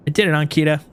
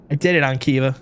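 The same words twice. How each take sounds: First: "Ankita" said with a clear t; corrected name. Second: "Ankiva" said with a v in place of the t; name it as "Ankiva" by mistake; mispronounced name. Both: Real, not acted.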